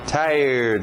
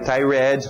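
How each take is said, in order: First: It ends with just a D sound. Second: It ends with an extra spelled-out syllable. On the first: The speaker calls it right. "Só um D no final" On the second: The speaker calls it wrong. "Não vai"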